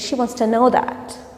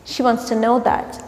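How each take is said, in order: The two takes are said the same way.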